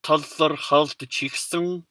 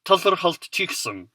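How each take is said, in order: First: Tazarhaztchiksung stretched out so every vowel is heard; slowly. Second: Tazarhaztchiksung rattled off quickly, vowels nearly dropped; Mongolian pronunciation. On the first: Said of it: "especially slowly". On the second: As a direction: say Tazarhaztchiksung as one fast cluster. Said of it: "You might want to say something like". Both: Shown as a demonstration.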